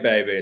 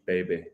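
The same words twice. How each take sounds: First: It is said as an Austin Powers impression. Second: It is said in a smooth, cool voice. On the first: Someone else imitated a film character. "She did the Austin Powers" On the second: Someone thought the speaker was trying to sound cool. "like I was really cool"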